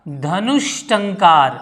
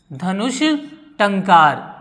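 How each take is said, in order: First: Dhanush टंकार drawn out slowly as one phrase; teacher's slow model answer. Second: Dhanush, a pause, then टंकार set apart; teacher spacing out the two words for the class. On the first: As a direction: stretch Dhanush टंकार out for the class. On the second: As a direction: break Dhanush from टंकार for dictation. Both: Shown as a demonstration. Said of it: "क्या हो जाएगा".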